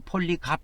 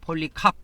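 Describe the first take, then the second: First: The last syllable starts with a plain k. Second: The last syllable starts with an aspirated k. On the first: "폴리갑 이렇게도 발음을 합니다" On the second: "폴리캅 해도 되고"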